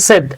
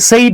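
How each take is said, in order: First: The vowel is plain like 'bed'. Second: The vowel glides like 'say'. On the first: The speaker calls it right. "উচ্চারণ হচ্ছে সেড" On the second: The speaker calls it wrong. "আমরা এটাকে সেইড বলি"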